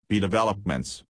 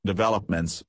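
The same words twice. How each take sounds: First: "developments" stretched and meaningful; lingering on developments. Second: "Developments" said again, weighted; repeated with significance. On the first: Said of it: "She lingered on the last word with significance". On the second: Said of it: "she repeated". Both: A narrator's reading.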